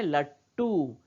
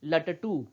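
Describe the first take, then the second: First: लट्टू as 'lat-too', drawn out with a held ट; half consonant. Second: लटटू run as 'la-ta-too'; full-letter reading. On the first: Teacher modelling the word for children, लट्टू as 'lat-too'. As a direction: stop on the half ट, then release a long टू. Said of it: "इसको हम कहते हैं". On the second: Teacher showing a hypothetical full ट, 'la-ta-too'. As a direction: sound both ट fully in लटटू. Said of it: "यदि ये ट पूरा होता तो हम क्या पढ़ते". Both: Shown as a demonstration.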